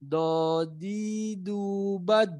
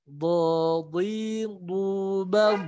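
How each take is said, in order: First: Wrong flat vowels; light unraised set; thin drill. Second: Raised thick vowels; thick drill. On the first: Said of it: "lidahnya nggak naik". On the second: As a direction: do di du bab heavy with the tongue raised. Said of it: "Ini kalau naik". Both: Shown as a demonstration.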